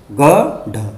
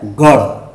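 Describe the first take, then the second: First: गढ़ broken before a hard ḍh; wrong stop sound. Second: गढ़ in one piece, flicked aspirated ṛh; correct flap. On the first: Teacher repeating the mistake, गढ़ with stopped ḍh. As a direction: say गढ़ as ga-ḍha, no flap. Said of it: "गलती से". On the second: Teacher correcting the slip, गढ़ with flapped ṛh. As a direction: say गढ़ as gaṛh, lower in pitch. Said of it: "लेकिन होता क्या है". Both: Shown as a demonstration.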